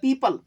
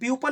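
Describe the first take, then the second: First: The first syllable sounds like 'pee'. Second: The first syllable sounds like 'pew'. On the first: The speaker calls it right. "ये पीपल है भैया" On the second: The speaker calls it wrong. "बहुत ही गलत तरीका है यार"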